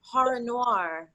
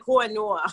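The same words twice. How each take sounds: First: Slow "horror noir" with both Rs sounded; "horror noir" drawn out, every R in place; careful horror noir. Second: New York "horror noir", said as "haw-uh nwah"; "horror noir" in a thick New York accent; real New York accent. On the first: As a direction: enunciate "horror noir" carefully in standard American. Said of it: "I have to say". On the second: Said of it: "in my real accent". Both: Shown as a demonstration.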